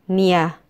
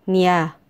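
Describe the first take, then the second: The two takes are said the same way.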